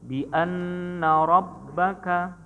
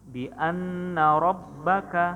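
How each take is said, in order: Both takes have the same delivery.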